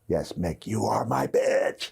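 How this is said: The line is yelled.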